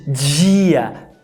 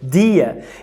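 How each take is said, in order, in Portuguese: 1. O d é suavizado e soa como um 'dj'. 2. O d é um som de d forte, normal. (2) "sem palatalizar"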